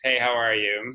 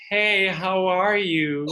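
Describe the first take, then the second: First: It is said in an everyday speaking voice. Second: It is said in a very sweet voice.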